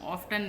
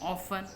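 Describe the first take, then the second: First: The t sound is pronounced in the middle. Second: The t sound is left out entirely. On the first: The speaker calls it wrong. "ऑफ्टन नहीं कहते" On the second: The speaker calls it right. "टी silent है इसमें"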